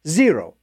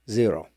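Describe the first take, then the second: First: Said in the usual way. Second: A softer, lower echo of the word "Zero."; quiet deadpan echo. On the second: Acted. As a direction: drop it low and soft, like an afterthought. Deadpan repeat for emphasis.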